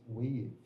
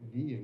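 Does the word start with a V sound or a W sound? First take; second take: W sound; V sound. First: The word starts with a W sound. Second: The word starts with a V-like sound. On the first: The speaker calls it right. "it's wave" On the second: The speaker calls it wrong. "you don't pronounce that as uh, weave"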